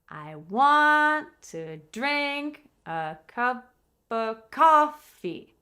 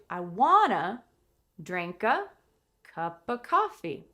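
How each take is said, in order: First: The words want to are said in full. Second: The words want to are reduced to wanna.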